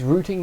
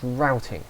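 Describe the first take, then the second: First: The word is said with a British pronunciation. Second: The word is said with a non-British pronunciation. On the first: The speaker calls it right. "I am British, it is routing" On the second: The speaker calls it wrong. "not routing"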